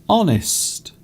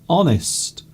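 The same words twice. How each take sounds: No difference in how they are said.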